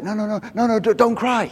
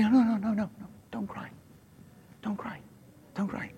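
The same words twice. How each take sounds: First: Higher, urgent rush of no's. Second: Very soft, higher, near-whispered plea; hushed urgency. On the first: Preacher voicing Jesus to a mourning woman, urgent. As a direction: plead urgently to stop the tears. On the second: Preacher voicing Jesus comforting a mourner, hushed urgency. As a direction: hush someone tenderly but urgently. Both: Acted. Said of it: "it's like with urgency".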